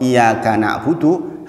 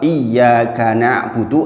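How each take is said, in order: First: The y sound is short and single. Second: The y sound is held long and doubled. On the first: Only your sunlight do I worship. The speaker calls it wrong. "saya salah tasdid" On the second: Only you do I worship. The speaker calls it right. "hanya kepada engkau saya menyembah"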